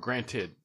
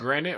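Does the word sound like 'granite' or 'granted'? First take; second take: granted; granite. First: The word is said as granted, ending in -ted. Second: The word sounds like granite, the countertop stone. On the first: It means 'admittedly'. The speaker calls it right. "or granted?" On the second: It sounds like the stone used for countertops. The speaker calls it wrong. "You said granted"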